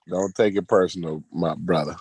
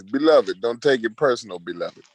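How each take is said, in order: First: Said in the usual way. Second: A light take on Garfield's Jamaican voice; lightly voiced Garfield. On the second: Shown as a demonstration. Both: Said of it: "I gotta hit you with my Garfield voice".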